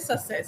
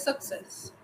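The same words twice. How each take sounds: First: The middle has only an s sound. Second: The middle has a k then s sound. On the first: The speaker calls it wrong. "we don't say success" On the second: The speaker calls it right. "we say success"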